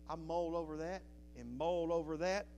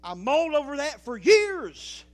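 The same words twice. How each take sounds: First: Said in the usual way. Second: Preached loud. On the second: Real, not acted. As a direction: belt out the word years, much louder. Repeated line, now shouted.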